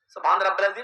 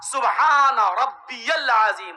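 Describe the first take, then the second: First: It is rushed and run together. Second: Each word is said slowly and clearly.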